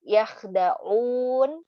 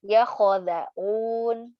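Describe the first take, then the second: First: Yakhdaun slow, kh with sukun, no vowel after it; correct reading. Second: Yakhodaun slow, an o inserted after kh; vowel added. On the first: Teacher giving the right reading of yakhdaun. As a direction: say yakhdaun slowly with a silent kh. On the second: Teacher demonstrating the extra vowel mistake in yakhodaun. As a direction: wrongly voice the kh as kho in yakhodaun. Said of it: "kita bacanya". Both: Shown as a demonstration.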